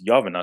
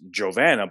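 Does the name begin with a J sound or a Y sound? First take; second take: Y sound; J sound. First: The name begins with a Y sound. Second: The name begins with a J sound. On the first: The speaker calls it right. "the way you correctly pronounce it is Yovana" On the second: The speaker calls it wrong. "my wife's name is Jovana"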